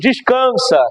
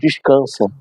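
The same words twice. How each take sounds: First: It is said with more force and energy. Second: It is said in a calm, ordinary way.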